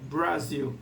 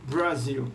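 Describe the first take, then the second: Both takes have the same delivery.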